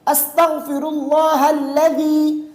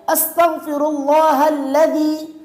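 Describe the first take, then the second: The two takes are said the same way.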